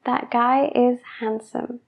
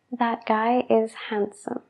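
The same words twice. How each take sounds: First: That guy is handsome slowly, D in handsome sounded. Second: That guy is handsome whispered, handsome as hansom. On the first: Teacher modelling the slow careful sentence. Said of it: "hablando lento". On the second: Teacher whispering the relaxed version of the sentence. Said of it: "cuando hablamos rápido". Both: Shown as a demonstration.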